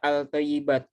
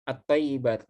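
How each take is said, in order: First: The 'l' of the article is clearly pronounced. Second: The 'l' merges into a doubled 't' sound. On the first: The speaker calls it wrong. "Tidak dibaca al-tayyibat" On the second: The speaker calls it right. "tidak dibaca lam"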